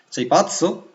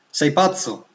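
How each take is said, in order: First: The voice rises at the end, as a question. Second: The voice falls at the end, as a statement. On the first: It asks whether the listener is crazy. "se invece voglio fare una domanda" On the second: It states that the listener is crazy. "se dico in italiano, sei pazzo, che c'è un'affermazione"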